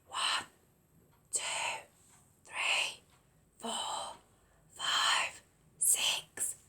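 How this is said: The numbers are whispered quietly.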